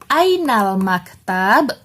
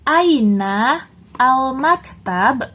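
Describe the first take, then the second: First: The two words are run together. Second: The two words are said separately.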